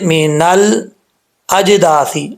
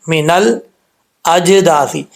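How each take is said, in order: The two takes are said the same way.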